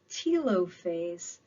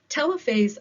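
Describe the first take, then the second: First: The start sounds like the start of 'telophone'. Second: The start sounds like the start of 'telephone'. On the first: This is how some other people say it. The speaker calls it wrong. "Some people pronounce this telophase, but I've never used a telophone" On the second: This is the speaker's own preferred way of saying it. The speaker calls it right. "I've used a telephone. Therefore, I am sticking with my pronunciation"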